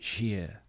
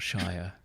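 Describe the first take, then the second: First: The word rhymes with 'near'. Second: The word rhymes with 'fire'. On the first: The speaker calls it right. "you pronounce it Sheer" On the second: The speaker calls it wrong. "not Shire"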